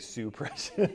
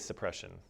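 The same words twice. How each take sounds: First: The first syllable is exaggerated with heavy stress. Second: The first syllable is said normally, without extra stress. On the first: The speaker calls it wrong. "we wouldn't say suppression" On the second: The speaker calls it right. "we would just say suppression"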